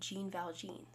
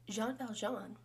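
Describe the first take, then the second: First: The name is pronounced with English sounds. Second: The name is pronounced with French sounds. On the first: "if you were to read it how we pronounce things in English" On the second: "which is French"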